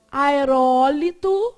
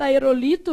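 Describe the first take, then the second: First: AERÓLITO said slowly and loudly, a-e-RÓ-li-to; stress on RÓ. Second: AEROLITO said a-e-ro-LI-to; stress on LI. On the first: Teacher giving the correct form, loud stress on RÓ. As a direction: punch the RÓ in "aerólito" and stretch it. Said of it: "tá escrito aerolito". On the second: Teacher reading what is written, stress on LI. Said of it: "tá escrito aerolito, não tá?". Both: Shown as a demonstration.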